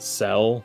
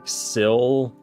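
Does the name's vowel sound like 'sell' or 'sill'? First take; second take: sell; sill. First: The vowel sounds like the one in 'set'. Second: The vowel sounds like the one in 'sit'. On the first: "thinking that it was called Cell, like with an E, or with an E sound" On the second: "I think it's supposed to be pronounced like sill, like cylinder"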